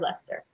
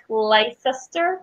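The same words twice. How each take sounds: First: The name is pronounced the way locals say it. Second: The name is pronounced the way it is spelled. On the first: The speaker calls it right. "but it's actually Leicester" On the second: The speaker calls it wrong. "It looks like Leicester"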